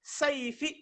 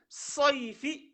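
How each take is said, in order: First: "saifi" with an open A in the first syllable; plain A reading. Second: "soifi" slow, first vowel a rounded O; emphatic O reading. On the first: Teacher explaining the word for machete, open-A "saifi". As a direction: say "saifi" starting on a clear A. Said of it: "quand on dit saifi". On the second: Teacher explaining the word for heat, rounded "soifi". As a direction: stretch "soifi" on its opening O. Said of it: "quand on dit soifi". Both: Shown as a demonstration.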